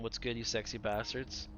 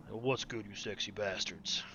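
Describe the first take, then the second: First: Said in the usual way. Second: a singer's voice. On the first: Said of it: "my opening line". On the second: Shown as a demonstration. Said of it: "do, like, a Barry White voice".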